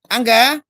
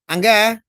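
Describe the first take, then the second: No difference in how they are said.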